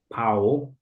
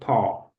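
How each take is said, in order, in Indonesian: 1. Vokalnya meluncur seperti 'ow' pada kata cow. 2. Vokalnya adalah satu bunyi 'aw' yang stabil. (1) "bukan pau" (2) "tapi paw"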